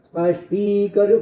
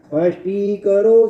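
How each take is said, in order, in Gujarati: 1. 'ti' અક્ષર ટૂંકો અને ભાર વગરનો છે. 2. 'ti' અક્ષર લાંબો અને ભારવાળો છે. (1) "સ્પષ્ટી કરો બોલીએ છો" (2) "ટી ગુરુ હોય ત્યાં જરા ભાર મૂકીને બોલાય"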